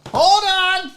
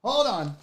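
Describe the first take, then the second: First: Calling out. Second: Said in the usual way. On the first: Real, not acted. Unboxer telling viewers to wait, calling out. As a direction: call it out high and insistent. Repeats it as a louder call.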